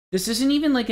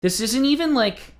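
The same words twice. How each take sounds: First: High, exasperated outburst again. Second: High, exasperated outburst. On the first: Repeated outburst. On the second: Exasperated rant about ride. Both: Real, not acted. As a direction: pitch up in disbelief.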